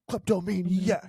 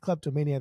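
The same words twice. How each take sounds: First: The word is forceful, each syllable sharply enunciated. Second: The word is said plainly, without extra force. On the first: The speaker calls it right. "really aggressive in how you say it and and really enunciate the syllables" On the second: The speaker calls it wrong. "it's not like kleptomaniac"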